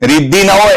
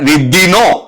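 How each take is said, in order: First: 'Na' and 'ho' are said as separate syllables. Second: 'Na' and 'o' merge into one syllable 'no'. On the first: This is the older form. "ન ને ઓ જુદા હતા ત્યારે" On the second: This is the later form. "પછી નો થઈ ગયું"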